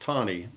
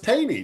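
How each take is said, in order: First: The first vowel sounds like 'aw'. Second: The first vowel sounds like 'ay'. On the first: This is the name's real pronunciation. The speaker calls it right. "it was pronounced Tawny" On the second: This is how the local county name is said. The speaker calls it wrong. "I thought it was Taney, T A N E Y, because that's what we call our county"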